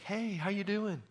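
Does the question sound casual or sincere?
casual. It sounds like a quick, casual polite greeting.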